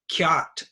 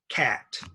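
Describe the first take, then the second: First: The vowel has a y-glide before it. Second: The vowel is plain with no glide. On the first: The speaker calls it wrong. "a kind of false pronunciation with ya" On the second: The speaker calls it right. "This is a cat"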